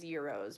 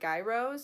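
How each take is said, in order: First: It begins with an almost silent G sound. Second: It begins with a clear sound, like gyroscope. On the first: This is how it is supposed to be said. The speaker calls it right. "they are supposed to be pronounced as gyros. Basically, the G is almost silent" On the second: This is how it is commonly said in America. The speaker calls it wrong. "In America, they are pronounced as like gyros, kind of like a gyroscope"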